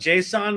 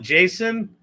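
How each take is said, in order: First: The word does not sound like a man's name. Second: The word sounds like the man's name Jason. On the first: This is the speaker's own preferred way. "it doesn't sound like a dude" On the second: This is how geeks say it. "geeks call it Jason"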